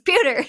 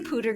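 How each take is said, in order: First: The first syllable sounds like 'pyoo'. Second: The first syllable sounds like plain 'poo'. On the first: "He's like, it's pewter. It's not pooter" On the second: "I say pooter gray"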